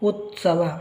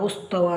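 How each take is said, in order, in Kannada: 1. t ಶಬ್ದ s ಶಬ್ದದ ಮೊದಲು ಬರುತ್ತದೆ. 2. s ಶಬ್ದ t ಶಬ್ದದ ಮೊದಲು ಬರುತ್ತದೆ. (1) "ಸರಿಯಾದ ಉಚ್ಚಾರ ಉತ್ಸವ" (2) "ಭಾಳಷ್ಟು ಮಕ್ಕಳು ಈಗ ಉಚ್ಚರಿಸ್ತಾರೆ ಉಸ್ತವ ಉಸ್ತವ ಅಂತ ಬರ್ತಾರೆ"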